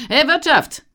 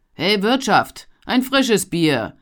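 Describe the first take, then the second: First: Much higher, loud bellow for service; loud call. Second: Loud call across the tavern, slow. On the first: Traveller bellowing for the innkeeper, loud call. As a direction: demand the innkeeper's attention. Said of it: "Auf diesen Ruf hin". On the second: Poor young man calling across the tavern for beer, loud call. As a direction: shout for the innkeeper. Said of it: "rief er". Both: A narrator's reading.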